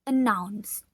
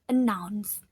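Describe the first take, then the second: The two takes are said the same way.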